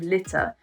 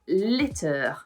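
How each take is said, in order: First: The ending is a short, light uh sound. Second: The ending is a strong, drawn-out er sound. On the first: The speaker calls it right. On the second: The speaker calls it wrong.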